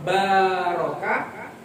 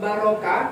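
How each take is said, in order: First: The middle vowel is long. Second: The middle vowel is short. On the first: A blessing. "itu berkah" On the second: A camel kneels down. "artinya dari dari diri itu otak duduk"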